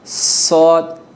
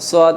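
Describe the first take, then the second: First: A clear s, tongue tip against the teeth. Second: A distorted s, tongue tip off the teeth. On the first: The speaker calls it right. "ज़ुबान की नोक लग रही है तो हमने सही प्रोनाउंस किया है" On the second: The speaker calls it wrong. "ये गलत तरीक़ा है"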